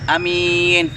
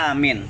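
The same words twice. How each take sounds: First: The first vowel is short, the second long. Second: The first vowel is long, the second short. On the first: It names a praiseworthy, trustworthy person. "kalau misalnya a-nya pendek, mimnya panjang" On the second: It is a command to make someone safe. "Ketika alifnya panjang, mimnya pendek"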